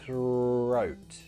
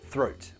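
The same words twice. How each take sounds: First: The word is said at a slower pace. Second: The word is said at a faster pace.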